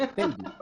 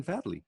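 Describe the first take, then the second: First: Fadley said as FAYD-lee, a as in fade; Fadley, first syllable rhymes with made; Fadley with long A. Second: Fadley said as FAD-lee, a as in cat; Fadley, first syllable rhymes with bad; Fadley with short A. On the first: Shown as a demonstration. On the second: Real, not acted. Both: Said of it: "Do, do you say Fadley or Fadley?".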